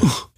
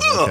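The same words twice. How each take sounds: First: It is whispered. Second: It is said aloud.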